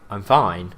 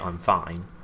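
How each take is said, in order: First: It is said in a relaxed, convincing tone. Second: It is said in an unconvincing, strained tone. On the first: The speaker really is fine. "people will believe you" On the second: The speaker is not really fine. "people won't believe you"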